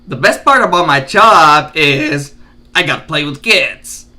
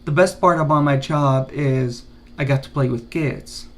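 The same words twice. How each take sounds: First: The pitch rises and falls in a lively way. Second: The pitch stays flat and monotonous throughout. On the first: The speaker calls it right. "Fluctuate your tone" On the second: The speaker calls it wrong. "Don't be monotonous"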